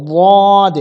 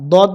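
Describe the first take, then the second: First: দদ loud, long and heavy from the tongue root; back-of-tongue দদ. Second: দদ made with the tip of the tongue. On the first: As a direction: draw out a thick দদ from the back of the tongue. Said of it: "জিহ্বার গোড়া দিয়ে". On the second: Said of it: "জিহ্বার আগা দিয়ে উচ্চারণ হয়". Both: Shown as a demonstration.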